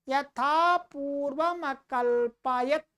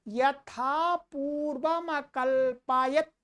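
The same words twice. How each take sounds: The two takes are said the same way.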